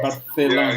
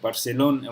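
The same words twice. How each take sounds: First: The c sounds like th, Spain style. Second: The c sounds like s, Latin American style.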